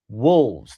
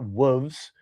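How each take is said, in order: First: The L sound is clearly pronounced. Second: The L sound is missing or swallowed. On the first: The speaker calls it right. "There's an L. It's wolves" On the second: The speaker calls it wrong. "not wolves"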